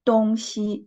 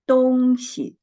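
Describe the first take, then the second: First: The second syllable has a full high level tone. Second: The second syllable has a light neutral tone. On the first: It refers to the directions east and west. "when we read the word first tone" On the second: It means a thing or stuff. "the second syllable, we read it the neutral tone"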